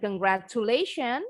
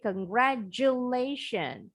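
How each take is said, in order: First: The consonant after 'congra-' is a plain T. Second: The consonant after 'congra-' sounds like J. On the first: The speaker calls it wrong. "Bukan congratulation" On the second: The speaker calls it right. "tapi congratulation"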